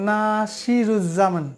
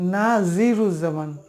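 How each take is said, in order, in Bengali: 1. মাঝের ব্যঞ্জনটি s ধ্বনি। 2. মাঝের ব্যঞ্জনটি z ধ্বনি।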